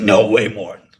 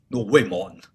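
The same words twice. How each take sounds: First: Louder mock Tony protest; imitating Tony. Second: Repeated at normal level, lightly voiced Tony; softer Tony imitation. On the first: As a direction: push it out loud as Tony. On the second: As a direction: say it again, toned down. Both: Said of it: "That's how he talks".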